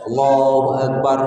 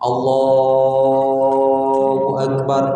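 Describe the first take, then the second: First: The phrase is said quickly and finished early. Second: The phrase is said more slowly and drawn out. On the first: The words finish before the movement does. The speaker calls it wrong. "ini kan lebih cepat, lebih cepat takbirnya" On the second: The words last as long as the movement. The speaker calls it right. "itu aja takbirnya"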